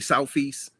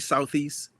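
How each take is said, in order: First: The middle sound is an f sound. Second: The middle sound is a th sound. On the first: "You say ... our T H's are F's" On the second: "You don't say"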